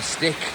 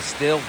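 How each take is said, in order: First: It ends with a k sound, like stick. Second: It has a short i vowel, like still. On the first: This is how people locally say it. "here they call them stick" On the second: This is how the speaker's own people say it. "I think we call them a still"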